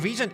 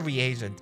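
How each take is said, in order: First: It is said with two syllables, like regent. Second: It is said with three syllables, re-agent. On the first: The speaker calls it wrong. "It's not regent" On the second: The speaker calls it right. "it is a reagent"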